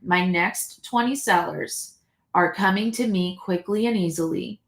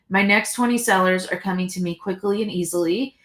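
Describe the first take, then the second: First: The sentence is spoken more slowly. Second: The sentence is spoken quickly. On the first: "I'll slow down just a little bit" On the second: "I know I said that really fast"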